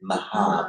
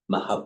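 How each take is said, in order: First: The final vowel is held long. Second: The final vowel is said short. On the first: "normally it would be" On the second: "the preceding A has been short"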